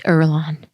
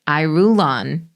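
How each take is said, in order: First: The name is said in its shorter, clipped form. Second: The name is sounded out fully, letter by letter. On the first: The speaker calls it right. "that that was pronounced Erlon" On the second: The speaker calls it wrong. "I literally was pronouncing it Irulon"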